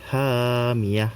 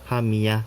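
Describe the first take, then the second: First: The first vowel is held long. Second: The first vowel is cut short. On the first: The speaker calls it right. "Jadi hamiyah" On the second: The speaker calls it wrong. "bukan hamiyah"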